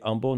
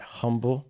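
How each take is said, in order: First: The name is pronounced the local way. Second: The name is pronounced the non-local way. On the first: The speaker is from the area. The speaker calls it right. "you say Humble" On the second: The speaker is from outside the area. The speaker calls it wrong. "not Humble"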